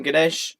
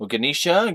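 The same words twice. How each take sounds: First: "Ganesh" in two syllables, guh-NESH; short Ganesh. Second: "Ganesha" as guh-NEE-shuh, loud; extra-syllable Ganesha. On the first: Naming what he calls his friend, "Ganesh" as guh-NESH. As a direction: say "Ganesh" with a short E and no final vowel. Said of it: "I call him Ganesh". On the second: Trying his friend's name, "Ganesha" as guh-NEE-shuh. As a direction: add a final syllable to "Ganesha", rising. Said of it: "adding extra syllables for me to say". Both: Shown as a demonstration.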